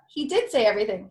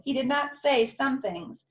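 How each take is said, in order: First: "did" hit hard, quick and loud; stress on did. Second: "did not say" pressed firmly, higher; stress on not. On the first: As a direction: punch the word "did". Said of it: "stress on did". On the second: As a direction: lean on "not" with conviction. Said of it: "stress on not". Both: Real, not acted.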